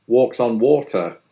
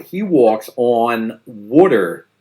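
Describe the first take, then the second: First: Said in the usual way. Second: Put-on "walks on water" said slowly in a Philly accent, "water" as wooder. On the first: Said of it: "the vowel sound in the word on". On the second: A Philadelphian praising Lawrence Brown, Philly accent. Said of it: "the vowel sound in the word on is more like on".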